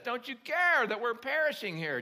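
The voice sounds urgent and panicked. The frightened disciples are desperate for help. The speaker calls it right. "It was more like"

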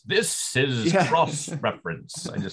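It is said in a put-on radio voice.

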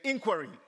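The word is said with an American pronunciation. "The Americans say inquiry"

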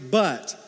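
The word sounds flat and deflated. Bad news is coming after good news. "After good news, it's just a but"

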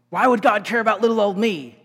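It sounds like a weary, bitter complaint. God is picking on me. The speaker calls it wrong. "It's not"

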